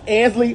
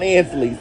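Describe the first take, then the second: First: Ansley ending on ee, without an S; no final S. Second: Ansley's with an S on the end; mistaken added S. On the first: Host giving the store's corrected name, Ansley with no S. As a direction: say Ansley, leaving off any final S. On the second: Host quoting store staff's correction, Ansley's with an extra S. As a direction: say Ansley's, adding an S after the final ee. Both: Shown as a demonstration. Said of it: "there's no S's on Ansley's".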